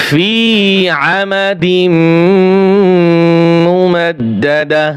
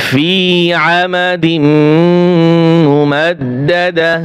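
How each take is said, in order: No difference in how they are said.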